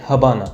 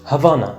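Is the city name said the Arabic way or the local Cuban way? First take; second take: Cuban; Arabic. First: The name is said the local Cuban way. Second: The name is said the usual Arabic way.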